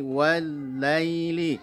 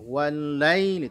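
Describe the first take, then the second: First: The word laili is said soft and smooth. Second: The word laili is said hard and choppy. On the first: The speaker calls it right. "lunakkan bunyi wal laili" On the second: The speaker calls it wrong. "Jangan wal lai wal laili"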